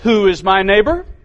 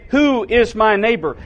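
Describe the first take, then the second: First: The question is asked in a pointed, challenging tone. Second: The question is asked in a plain reading tone. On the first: The asker wants to justify himself and test the listener. "I wonder if his voice inflection was more like this" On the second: It is a sincere question. "I read that like that because it seems like that's what we do with the text"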